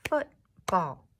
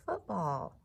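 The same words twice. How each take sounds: First: "Football" in two loud, separate beats, Foot-ball; clapped-out syllables. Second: Said in the usual way. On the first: Shown as a demonstration. Teacher clapping football for the class, "Football" loudly syllable by syllable. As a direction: punch each half of "Football" with a gap between. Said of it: "clap and count the syllables in each word". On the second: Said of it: "Let's do football".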